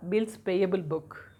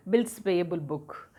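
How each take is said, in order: Both takes have the same delivery.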